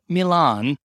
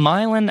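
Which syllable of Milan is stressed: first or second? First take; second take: second; first. First: The stress is on the second syllable. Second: The stress is on the first syllable. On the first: This is the Italian city's name. The speaker calls it wrong. "not Milan, Ohio" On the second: This is the Ohio town's local name. The speaker calls it right. "Thomas Edison was born in Milan, Ohio"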